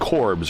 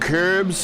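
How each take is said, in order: First: The vowel is a plain English o sound. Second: The vowel is a rounded umlaut sound. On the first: The speaker calls it wrong. "in English. Someone would say that it's Corbs" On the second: The speaker calls it right. "the umlaut over the O is supposed to make an uh sound"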